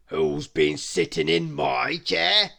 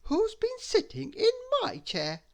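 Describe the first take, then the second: First: Loud, slow big bear; loud, slow bear question. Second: Much higher middle bear; medium bear voice. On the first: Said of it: "said the big bear". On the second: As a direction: ask it as the mother bear, high. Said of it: "said the medium bear". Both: A narrator's reading.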